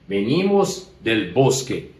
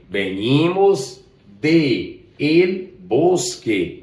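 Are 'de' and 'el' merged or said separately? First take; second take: merged; separate. First: The words de and el merge into del. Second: The words de and el are said separately. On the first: The speaker calls it right. "juntou... ficou del" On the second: The speaker calls it wrong. "Olha que som, que sonoridade desagradável"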